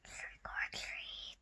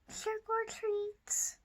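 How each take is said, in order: First: It is said very softly. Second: It is said a little louder.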